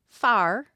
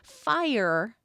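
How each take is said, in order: First: Said with a flat Appalachian vowel, like 'far'. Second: Said with a standard gliding vowel, like 'fy-er'.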